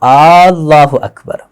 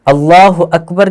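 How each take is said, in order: First: The opening vowel of Allah is drawn out. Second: The opening vowel of Allah is short. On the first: The speaker calls it wrong. "अल्लाह का जो शुरू वाला अलीफ है उस पर मद लगा देते" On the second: The speaker calls it right. "अल्लाह अकबर की बजाय"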